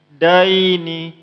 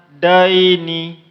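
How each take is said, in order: First: The word ends with a final vowel sound. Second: The word ends with a final vowel sound.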